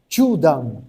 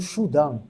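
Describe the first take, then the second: First: The word begins with a 'ch' sound. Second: The word begins with an 'sh' sound. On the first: The speaker calls it right. "O C H, né, na, na, no padrão japonês, ele tem é, som de T" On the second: The speaker calls it wrong. "você não pode ler como Shudan"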